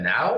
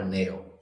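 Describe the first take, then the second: First: The name rhymes with cow. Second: The name rhymes with mail. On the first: "do you pronounce that now" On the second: "or nail?"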